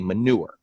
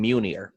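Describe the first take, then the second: First: The name sounds like the word manure. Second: The name does not sound like manure. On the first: The speaker calls it wrong. "people would pronounce it wrong. They'd say manure" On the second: The speaker calls it right. "my real name is [name]"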